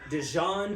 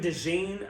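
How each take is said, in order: First: The last syllable sounds like 'jon'. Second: The last syllable sounds like 'jean'. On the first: The speaker calls it wrong. "I thought it was Dijon" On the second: The speaker calls it right. "until I heard him say it was DeJean"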